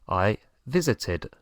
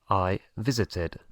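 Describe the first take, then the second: Both takes have the same delivery.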